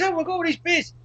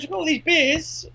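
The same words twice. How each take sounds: First: High, eager shopkeeper voice; imitating the deli bloke. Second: High, eager voice with stress on these; keen salesman pitch; imitating the deli bloke. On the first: Retelling the deli owner boasting about beers, high and eager. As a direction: send up the bloke's enthusiasm. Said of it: "then he goes". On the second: Retelling the deli owner repeating his beer boast, high and eager. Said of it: "He goes".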